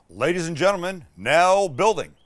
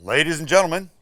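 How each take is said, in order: First: Louder, higher ballpark announcer call; baseball announcer voice. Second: Loud announcer call that misfires; bad announcer take. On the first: Host introducing the pizza build in a baseball announcer voice. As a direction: announce it to the whole stadium. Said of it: "it's my, my baseball voice". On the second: Host opening the build segment in a loud ballpark voice. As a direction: boom it out like a ballpark announcer, then fumble. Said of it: "sorry, that was bad". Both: Shown as a demonstration.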